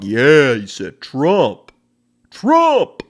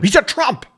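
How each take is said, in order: First: Slow, drawn-out mock cheer; hammed-up thrilled supporter; imitation of cheering fan. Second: High, louder mock outcry; hammed-up offended gasp of a line; imitation of outraged person. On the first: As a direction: whoop it slowly, louder and higher at the end. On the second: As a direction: cry it out like a scandalized objector. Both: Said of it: "my imitation of people who feel two ways".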